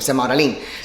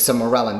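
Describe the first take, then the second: First: It is said with a Spanish accent. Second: It is said with an English accent. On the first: The speaker calls it right. "sounds so much better" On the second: The speaker calls it wrong. "I just can't say it in English. Sermorelin doesn't sound the same"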